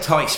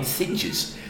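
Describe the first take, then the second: First: The name is said like 'Tice'. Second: The name is said like 'Thidges'. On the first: "I say Tice Van Leer" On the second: "could phonetically call Him Thidges"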